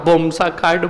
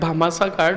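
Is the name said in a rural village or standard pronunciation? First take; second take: rural village; standard. First: The name is shortened in rural dialect pronunciation. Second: The name is pronounced fully in standard form. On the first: Older village people cannot manage the long name. "गांव के अंदर बूढ़ी औरतें और बूढ़े लोग ... यही कहते थे" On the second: The speaker is educated. "इसका उच्चारण अच्छे से करते हैं"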